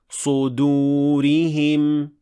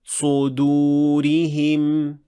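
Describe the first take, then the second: Both takes have the same delivery.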